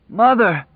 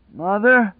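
First: High, loud gleeful call; joyful shout from a madman; happy cry. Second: High, uncertain call; doubtful high-pitched cry; weak doubt. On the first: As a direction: call out in mad delight. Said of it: "the voice cried happily in answer". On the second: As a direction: call out, doubting anyone will answer. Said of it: "now full of weak doubt". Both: A narrator's reading.

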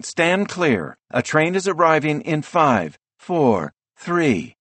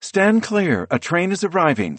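First: High, urgent station countdown; urgent announcer voice. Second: High, urgent station announcement; urgent announcer voice. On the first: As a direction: blare the countdown like a platform speaker. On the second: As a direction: blare it like a platform speaker. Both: A narrator's reading. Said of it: "An urgent female voice blares through a speaker overhead".

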